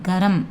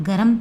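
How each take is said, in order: No difference in how they are said.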